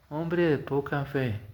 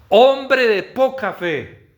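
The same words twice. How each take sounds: First: It is said softly, without force. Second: It is said loudly, with force.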